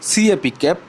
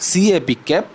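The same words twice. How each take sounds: Both takes have the same delivery.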